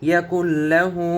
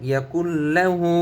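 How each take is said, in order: The two takes are said the same way.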